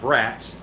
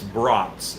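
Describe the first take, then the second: First: The vowel is a short flat a, as in bat. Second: The vowel is an open ah, as in bought. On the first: The speaker calls it wrong. "It's not brats" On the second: The speaker calls it right. "It's the long A. almost like a B R O U T"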